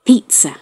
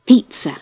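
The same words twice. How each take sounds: No difference in how they are said.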